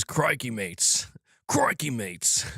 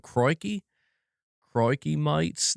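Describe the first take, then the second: First: Put-on slow, rough stab at an Australian accent; attempted Australian accent. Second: Put-on higher-pitched Australian accent, vowels broadened, "mates" as "mites"; attempted Australian accent. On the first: Streamer reading a chat greeting, attempted Australian accent. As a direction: try Australian, not quite getting it. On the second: Streamer retrying a chat greeting, higher Australian accent. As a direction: have another careful go at sounding Australian. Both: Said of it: "a proper Australian accent".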